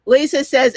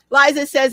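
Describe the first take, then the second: First: Lisa said as LEE-suh, with ee and z sound; wrong name. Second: Liza said as LYE-zuh, long i; Liza, carefully said LYE-zuh; corrected name. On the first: Host reading viewer's name aloud, mispronounced as LEE-suh. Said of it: "why do I keep calling you Lisa?". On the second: Host correcting viewer's name, careful LYE-zuh. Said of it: "Liza, I'm sorry". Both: Real, not acted.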